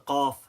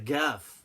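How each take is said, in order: First: It starts with a deep Q sound. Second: It starts with a hard G sound. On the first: "the qaf" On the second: "some people pronounce the qaf as a gaf"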